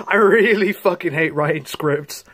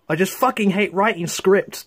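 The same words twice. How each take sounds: First: Really leaned on, a little louder with a laugh; stress on really. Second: Said in the usual way. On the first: Real, not acted. Vlogger laughing as he repeats his script complaint, stress on really. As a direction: hit really harder.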